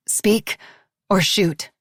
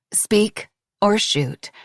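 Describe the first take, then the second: First: "Speak or shoot?" asked at normal pace, "Speak" lifted; insistent demand; repeated as a question. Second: Each word slow and deliberate, "speak or shoot" drawn out; cold, measured ultimatum. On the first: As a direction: press him with the question again. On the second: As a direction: lay down the dare slowly. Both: Acted. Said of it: "she asked again".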